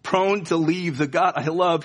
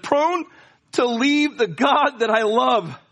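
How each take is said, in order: First: Said in the usual way. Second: Tearful plea. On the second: Acted. Tearful poet quoting himself.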